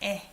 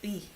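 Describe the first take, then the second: First: The particle is said with the vowel 'e'. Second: The particle is said with the vowel 'ui'. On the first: The speaker calls it right. "You say 에" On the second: The speaker calls it wrong. "you don't pronounce it as 의"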